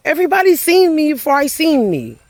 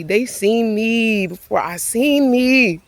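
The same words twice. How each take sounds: First: Emphatic realisation. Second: Said in the usual way. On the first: Real, not acted. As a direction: lift it high, hit seen both times. Repeats the realisation louder.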